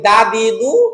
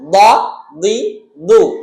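First: The consonant is made with the tongue tip at the teeth. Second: The consonant is made with the side of the tongue. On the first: The speaker calls it wrong. "আমরা যারা এক করে ফেলি তারা বলি" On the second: The speaker calls it right. "আমি বাম পাশ থেকে বলতেছি"

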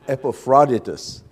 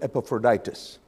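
First: It is said with a Greek pronunciation. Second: It is said with a North American pronunciation. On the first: The speaker calls it right. "That's the Greek way" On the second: The speaker calls it wrong. "in North America, you'd call him Epaphroditus"

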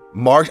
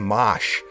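First: The word is said with a plain r. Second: The word is said with a Boston accent.

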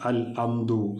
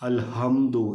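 First: Hamdu starts with a glottal stop instead of h. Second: Hamdu starts with a light, soft h sound. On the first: "ഹംസയോ ... ഒന്നുമായി പോവാതെ" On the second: "ഹ ഓ ഒന്നുമായി പോവാതെ"

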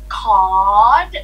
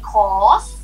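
First: The word ends with a t sound. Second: The word ends with an s sound. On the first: This is how Thai speakers say the loan word. "we say caught" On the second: This is the original English word. "instead of saying course"

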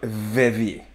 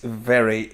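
First: It is said with a Danish-accented pronunciation. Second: It is said with a standard English pronunciation. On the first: The speaker calls it wrong. "it's not very" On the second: The speaker calls it right. "It's very"

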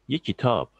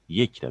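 First: The stress falls on the last syllable. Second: The stress falls on the first word, yek. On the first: It means any book, indefinitely. "sona vurgu yaptığımız zaman" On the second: It means one book, as a count. "yeke vurgu yaptığımız zaman"

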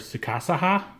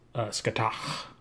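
First: The name is said with Japanese-style syllables. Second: The name is said with Irish-style sounds. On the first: "if you go by the Japanese pronunciation" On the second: "When I listened to the Irish people, it was"

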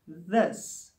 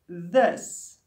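First: The word starts with a soft th sound. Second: The same.

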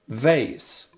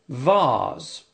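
First: It is said with an American pronunciation. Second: It is said with a British pronunciation.

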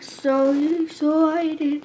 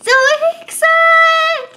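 First: It is said in a deep voice. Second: It is said in a normal voice.

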